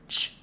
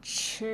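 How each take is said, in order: First: CH as a bare puff of air without vowel; plain voiceless CH. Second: CH carried on into a buzzing vowel; voiced CH. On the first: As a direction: say CH unvoiced, like the end of peach. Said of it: "it's still pronounced as ch, but just voice it". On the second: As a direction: let CH vibrate in the vocal cords, like chirp cut before the R. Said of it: "Now voice it". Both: Shown as a demonstration.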